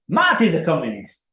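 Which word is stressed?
Matt. The stress is on the word Matt.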